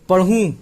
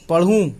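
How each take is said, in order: The two takes are said the same way.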